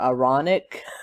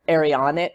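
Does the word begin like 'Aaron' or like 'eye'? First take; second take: eye; Aaron. First: It begins with a sound like 'eye'. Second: It begins with a sound like 'Aaron'. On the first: The speaker calls it right. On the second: The speaker calls it wrong.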